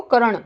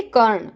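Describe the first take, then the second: First: कर्ण said as two beats, "ka-ran"; wrong full R. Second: कर्ण as one syllable, "karn"; correct half R. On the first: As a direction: put a vowel after र in कर्ण. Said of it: "नहीं बोलेंगे इसको". (कर्ण को गलत "करण" बोलें) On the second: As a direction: join र straight to ण in कर्ण. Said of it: "इसको बोलेंगे". (कर्ण में र आधा बोलें) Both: Shown as a demonstration.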